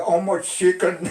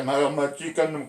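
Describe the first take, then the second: First: Quick, high broken English; American asking. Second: Slow, spelled-out "How much chicken?"; slow repeat. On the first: Retold or imitated. American soldier asking father about chickens, quick high English. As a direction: toss off the question like a GI. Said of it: "Il y en a un qui dit à mon père". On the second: Shown as a demonstration. Narrator slowly repeating the soldier's question for the listener. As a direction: lay out each word slowly for the listener. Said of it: "Tu vois".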